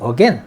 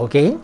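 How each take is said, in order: First: It is said with an American pronunciation. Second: It is said with a British pronunciation. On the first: "미국식은 again" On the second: "이것은 영국식 발음입니다"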